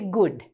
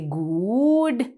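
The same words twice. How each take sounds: First: The vowel is a short oo sound. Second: The vowel is a long oo sound. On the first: The speaker calls it right. "we say good. So it's a short oo sound" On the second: The speaker calls it wrong. "We don't say good"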